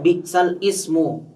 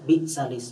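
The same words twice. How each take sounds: First: The hamzah before ismu is kept as its own sound. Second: The vowel moves onto the lam, skipping the hamzah. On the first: This is the original form of the phrase. "ini aslinya bi'sal ismu" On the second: This is the required reading in this verse. "dipindahkan ke lam, ya, untuk memudahkan"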